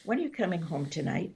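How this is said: It sounds warm, inviting and welcoming.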